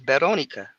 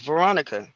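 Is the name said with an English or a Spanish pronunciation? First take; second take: Spanish; English. First: The name is said the Spanish way. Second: The name is said the English way. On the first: "in Spanish it's Veronica" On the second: "my name is Veronica"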